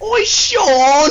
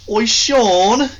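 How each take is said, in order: First: It is said in a high-pitched voice. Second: It is said in a lower voice.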